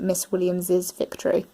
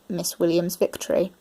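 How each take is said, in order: First: The name ends with an extra iz syllable. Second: The name ends in a plain z sound. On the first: "for those who pronounce it Miss Williams's victory" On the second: "for those who pronounce it Miss Williams' victory"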